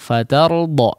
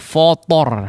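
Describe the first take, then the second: First: The f and t vowels are light and open. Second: The f and t vowels are heavy and rounded. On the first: The speaker calls it right. "fathahnya disempurnakan" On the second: The speaker calls it wrong. "Jangan fotor"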